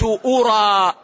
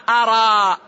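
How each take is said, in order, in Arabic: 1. الحركة الأولى هي الصوت 'u'. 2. الحركة الأولى هي الصوت 'a'. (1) "بضم الهمز" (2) "بفتح الهمزة"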